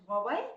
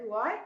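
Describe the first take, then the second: First: Huawei said as "wah-way"; corrected pronunciation. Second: Huawei as some people say it; alternative pronunciation. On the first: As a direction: say Huawei carefully as "wah-way", rising at the end. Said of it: "the right pronunciation is Huawei". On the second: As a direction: say Huawei the common, mistaken way, rising at the end. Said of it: "some people say Huawei, but apparently". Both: Shown as a demonstration.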